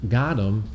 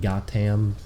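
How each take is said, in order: First: The name is said with a 'th' sound. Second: The name is said with a plain 't' sound.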